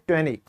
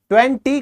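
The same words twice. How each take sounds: First: The t after the n is dropped. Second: The t after the n is clearly pronounced. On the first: The speaker calls it right. "टी जो है आपका silent है" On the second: The speaker calls it wrong. "ट्वेंटी कभी नहीं होता अब English में"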